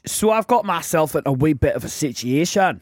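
It is read in a put-on Scottish accent.

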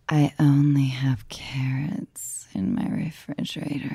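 It is said in a sexy voice.

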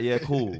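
It is said in a Scottish accent.

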